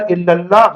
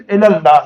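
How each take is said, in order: First: الی اللہ said as "illallah", doubled L; wrong-example "illal-lah" with an i vowel; mistaken pronunciation. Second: الی اللہ said as "ela-llah", single L; correct pronunciation. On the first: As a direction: show the error, "illa" for "ela". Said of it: "غلط ہے". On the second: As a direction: show the right form, "ela" not "illa". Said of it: "صحیح چیز". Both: Shown as a demonstration.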